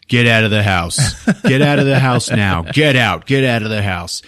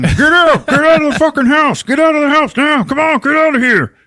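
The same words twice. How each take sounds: First: Firm, unscreamed command; acted firm order. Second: High, loud shouting through a taped mouth; garbled, muffled yelling. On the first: Rusty walking through telling all the sisters, firm command. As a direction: order everyone out, keeping it controlled. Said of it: "telling all the sisters". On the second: Retold or imitated. Tom with duct tape over his mouth, garbled frantic yelling. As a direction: yell frantically with the words garbled. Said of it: "he just starts garbling at them".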